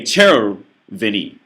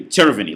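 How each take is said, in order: First: Červený said slowly with even Czech rhythm, the stress on the first syllable; Czech pronunciation. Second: Červený said with an English rhythm and the stress moved; English-style pronunciation. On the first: Showing viewers how Czechs say červený, slow and even. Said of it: "but you say červený". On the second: Showing viewers how an English speaker mangles červený. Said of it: "You don't say červený". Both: Shown as a demonstration.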